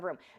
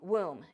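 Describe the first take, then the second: First: The first sound is a clear R. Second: The first sound comes out like a W. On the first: The speaker calls it right. "instead of room" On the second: The speaker calls it wrong. "womb instead of room"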